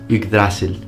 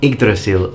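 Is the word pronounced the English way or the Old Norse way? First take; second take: Old Norse; English. First: It is pronounced the Old Norse way. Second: It is pronounced the usual English way. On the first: The speaker calls it right. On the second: The speaker calls it wrong.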